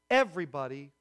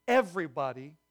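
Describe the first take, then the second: No difference in how they are said.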